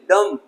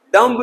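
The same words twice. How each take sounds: First: डम ending on M, silent B; correct pronunciation. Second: डम्ब with the B sounded; wrong pronunciation. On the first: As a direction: close on the M in डम. (सही उच्चारण, डम में B मूक) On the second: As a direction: end डम्ब on an audible B. (गलत उच्चारण, डम्ब में "ब" बोलकर) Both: Shown as a demonstration. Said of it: "डम्ब नहीं".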